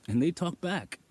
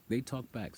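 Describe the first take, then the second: First: "they" punched high and loud; emphatic. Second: Said in the usual way. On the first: Real, not acted. Insisting to viewers that the animals answer, emphatic. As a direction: hit "they" hard, higher and louder.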